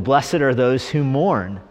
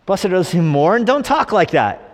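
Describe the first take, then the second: First: Slow, measured verse reading; straight scripture reading. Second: High-pitched mock disbelief; appalled consultant. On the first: Acted. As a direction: quote the verse slowly and plainly. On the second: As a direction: echo the verse back aghast, then scold. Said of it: "Church growth expert, heart attack".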